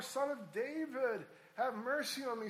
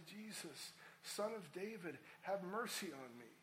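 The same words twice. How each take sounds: First: Higher, insistent plea, mildly raised; crying out more. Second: Said in the usual way. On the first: Acted. Blind beggar calling to Jesus despite rebukes, crying out more. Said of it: "cried out all the more". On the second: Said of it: "he began to cry out and say".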